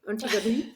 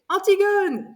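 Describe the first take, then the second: First: The name is pronounced with English sounds. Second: The name is pronounced with French sounds. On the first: The teacher said it this way and it was hard to recognize. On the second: The speaker finally recognized the title.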